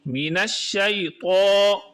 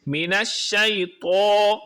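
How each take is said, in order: Both takes have the same delivery.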